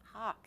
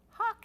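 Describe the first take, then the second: First: Said in the usual way. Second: Very high, very loud cry; cried out. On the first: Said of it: "he said, correcting himself". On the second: A narrator's reading. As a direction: cry out the warning this time. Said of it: "he cried".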